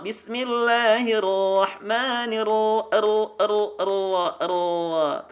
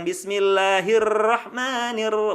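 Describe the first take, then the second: First: Very slow BISMILLAHIRRAHMANIRRAHIM, heavy R with little trill; thickened R. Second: BISMILLAHIRRAHMANIRRAHIM with much-rolled tongue-tip R; over-trilled R. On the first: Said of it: "Terdengar suaranya menebal". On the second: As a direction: rattle every R in BISMILLAHIRRAHMANIRRAHIM, the wrong way. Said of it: "getaran itu nggak akan banyak". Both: Shown as a demonstration.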